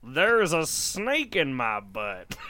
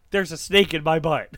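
First: Slow drawn-out toy line; pull string toy. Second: A hint of the cowboy pull-string doll; lightly voiced toy cowboy line; Woody voice. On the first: Acted. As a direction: play it like a wind-down pull-string doll. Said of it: "Pull my string, Darren". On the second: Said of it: "It's when Woody, my favorite cowboy, says".

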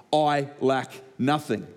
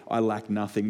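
First: "I lack nothing" slowed right down, each word given weight. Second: Said in the usual way. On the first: Shown as a demonstration. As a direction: land "lack" and "nothing" slowly and deliberately. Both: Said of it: "listen to the last three words".

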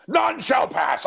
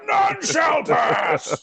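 First: Slow, high mock wizard decree; wizard gatekeeper. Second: Slow, high, booming mock wizard shout. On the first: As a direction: block the way like a stage wizard. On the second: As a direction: roar it like a wizard barring the bridge. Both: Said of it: "I said".

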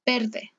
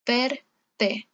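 First: Said in the usual way. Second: "verde" broken as "ver... de", R tapped once; syllable-by-syllable "ver-de"; split into syllables. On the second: Shown as a demonstration. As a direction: pause after the tapped R in "verde". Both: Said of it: "Al final de la sílaba".

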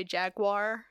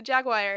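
First: "Jaguar" as JAG-wahr; local pronunciation. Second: "Jaguar" as JAG-wire; own pronunciation. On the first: Quoting how people here say it, local JAG-wahr. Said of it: "people here say Jaguar". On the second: Defending the speaker's own version, JAG-wire. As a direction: rhyme the end of Jaguar with "wire". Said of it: "I get knocked for the most". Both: Shown as a demonstration.

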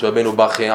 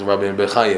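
First: Bachye said as BAKH-ye, two syllables; Bachye, the shorter everyday form; customary name pronunciation. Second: Bechaye said as be-kha-YE, three syllables; Bechaye, the fuller form of the name; formal name pronunciation. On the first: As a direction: say "Bachye" with an open a and a throaty kh. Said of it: "We say Bachye". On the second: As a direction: say "Bechaye" with a short e after the B and a throaty kh. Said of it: "We say Bachye. He's Rabbeinu Bechaye". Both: Shown as a demonstration.

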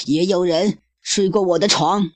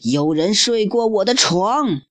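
First: Higher hammed-up growl of a voice; roaring mama bear. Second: Higher, hammed-up bear roar; roaring papa bear. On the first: Mama bear echoing papa, hammed-up roar. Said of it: "熊妈妈也咆哮道". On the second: Papa bear finding his bed used, hammed-up roar. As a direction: bellow it like a cartoon bear. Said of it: "熊爸爸咆哮道".

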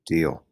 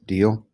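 First: "Deal" with a falling end; "Deal" dropped as a firm reply; agreeing. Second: "Deal" with a rising end; "Deal" lifted, seeking agreement; questioning. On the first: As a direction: answer "Deal" lower, settling it. Stephen agrees. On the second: Samar asks for a promise. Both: A narrator's reading.

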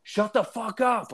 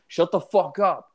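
First: Much higher, slow mock drunk yell; more intense retold snap. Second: Retold angry snap. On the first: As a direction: imitate him boiling over at the barking dog. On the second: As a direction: imitate a drunk guy losing patience with a dog. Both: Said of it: "he's getting more and more intense".

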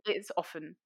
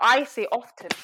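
First: "often" with the T dropped, as OFF-en; silent T. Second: "often" with a clear T, as OF-ten; louder, insisting on "often" as OF-TEN; sounded T. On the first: Conceding to the boys at dinner, often with silent T. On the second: Insisting to the boys on her own way, often with sounded T. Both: Shown as a demonstration. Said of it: "But I say often".

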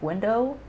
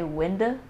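First: Said in the usual way. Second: "window" ending in a short uh, "winda"; dad's pronunciation. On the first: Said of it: "instead of window". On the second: Retold or imitated. Quoting dad's word to cohost, imitating pronunciation. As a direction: drop the O of "window" to an uh. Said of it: "caught him say window".

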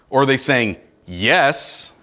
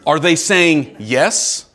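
First: Lower, slow, flat reading of "yes" as a cold yes; a touch of suspicion on "yes"; curt yes. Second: Slow, open question with a sincere rise on yes; genuine yes. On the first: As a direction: say "yes" as if it were a clipped, annoyed answer. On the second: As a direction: ask it as if the yes is a real, happy yes. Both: Shown as a demonstration. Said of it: "What does that period mean?".

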